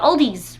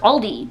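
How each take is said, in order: First: The name ends with an added s sound. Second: The name ends without an added s sound. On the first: The speaker calls it wrong. "People are like, let's go to Aldi's" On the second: The speaker calls it right. "It's Aldi. There's, there's no S"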